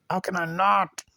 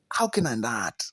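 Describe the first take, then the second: First: Higher, insistent plea; exasperated. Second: Low, quiet exasperation; resigned. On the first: Reviewer unable to stop questioning the film, exasperated. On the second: Reviewer unable to stop questioning the film, resigned. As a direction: ask it low, as if defeated. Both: Real, not acted.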